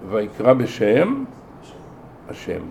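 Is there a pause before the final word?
Yes. A break falls before the final word. God himself was the one who called. The speaker calls it right. "אלא ויקרא בשם השם. הקורא היה השם"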